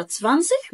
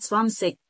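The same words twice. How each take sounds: First: "تسفانسش" ending in a soft hissed ch; soft ich ending. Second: "سفانسيك" ending in a hard k; clicked K ending. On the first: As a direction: finish "تسفانسش" on a soft sh-like fricative. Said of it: "بينطقوا النطقين". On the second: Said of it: "سامع صوت التكة". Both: Retold or imitated.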